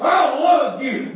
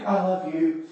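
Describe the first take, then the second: First: High, drawn-out mock declaration of love; grudging child, hammed-up and slow; insincere, forced affection. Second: Soft, subdued declaration of love; small, softened voice of a boy relenting; meaning it. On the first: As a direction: drag out LOVE like a kid forced to say it. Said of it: "I don't like the way you said it". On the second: Retold or imitated. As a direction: give in and say it quietly. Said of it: "say it like you mean it".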